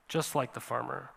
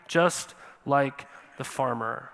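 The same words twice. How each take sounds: First: Much softer, quiet repeat; soft echo. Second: Slow, weighty delivery of the line; slow emphasis. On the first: Preacher echoing his own point to the congregation, hushed. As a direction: let it fall away to a near hush. Preacher echoes phrase softly. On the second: Preacher to congregation, comparing them to the farmer, slow and weighty. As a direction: lean on it, drawing each word out slowly. Preacher repeats phrase for effect. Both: Acted.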